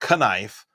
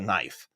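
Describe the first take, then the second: First: The word starts with a K then N. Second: The word starts with a plain N sound. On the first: The speaker calls it wrong. "I don't say" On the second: The speaker calls it right. "I call this a"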